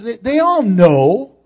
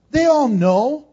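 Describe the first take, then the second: First: "all" drawn out, slow and louder; stress on all. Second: "all" lifted high with a rise; stress on all. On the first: Preacher driving home that they all know, "all" stressed. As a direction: lean into "all" as a point. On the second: Preacher repeating to congregation, "all" raised. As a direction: hit "all" higher. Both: Real, not acted. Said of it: "repeats for stress".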